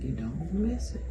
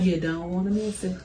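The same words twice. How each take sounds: First: It is said at normal volume. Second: It is said louder.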